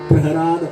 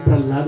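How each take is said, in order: First: The middle of the name sounds like 'hr'. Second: The middle of the name sounds like 'lh'. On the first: This is the original form of the name. "प्रहराद असं नाव आहे" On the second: This is the form people commonly use. "आम्ही प्रल्हाद म्हणतो"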